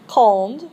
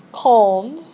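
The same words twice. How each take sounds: First: Quand said with a nasal on, rising; model word. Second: Quand repeated louder, rising; model word, louder. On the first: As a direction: say Quand clearly with a lift. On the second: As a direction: say Quand again, clearer and louder. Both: Shown as a demonstration. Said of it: "you're gonna repeat these after me".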